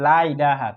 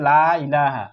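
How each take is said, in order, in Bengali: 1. 'la' এর স্বরটি ছোট করে, সংক্ষেপে পড়তে হয়। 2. 'la' এর স্বরটি টেনে দীর্ঘ করে পড়তে হয়।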